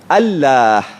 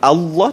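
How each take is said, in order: First: The L is pronounced thin and light. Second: The L is pronounced thick and heavy. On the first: "kalau tak tebal nipis" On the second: "Kalau Allah tebal"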